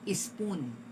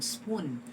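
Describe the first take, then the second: First: An E sound is added before the S. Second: It starts directly with the S sound. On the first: The speaker calls it wrong. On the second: The speaker calls it right.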